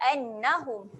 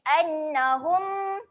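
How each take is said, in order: First: The final m sound is short and clipped. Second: The final m sound is drawn out long. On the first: The speaker calls it right. "Pendek saja annahum. Jelas" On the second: The speaker calls it wrong. "kalau kita panjangkan dia bunyi annahum. Ha, salah eh"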